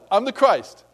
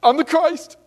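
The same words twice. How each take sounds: First: A touch of bragging, less raised; milder mock boast. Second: High, loud hammed-up self-proclaiming; mock boasting. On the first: Preacher repeats the bragging line, milder. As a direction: repeat it half-heartedly. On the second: Preacher mocks a boastful Christ, high and loud. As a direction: puff yourself up, overplayed. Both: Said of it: "go around saying".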